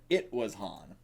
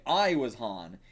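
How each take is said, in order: First: "It" stressed, correcting "I". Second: Said in the usual way. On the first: Shown as a demonstration. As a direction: lean on "It" in "It was Han". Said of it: "He said". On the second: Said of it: "He said, "It was Han".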